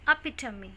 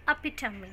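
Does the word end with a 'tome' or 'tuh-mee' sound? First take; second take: tuh-mee; tuh-mee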